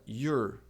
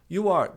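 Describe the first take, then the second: First: It is said as one contracted syllable. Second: It is said as two full words.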